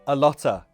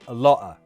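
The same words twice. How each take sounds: First: The T is a released, non-glottal sound. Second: The T is a glottal stop.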